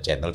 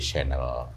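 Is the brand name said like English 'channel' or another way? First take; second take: like channel; other way. First: The name is said like English 'channel'. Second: The name is not said like English 'channel'.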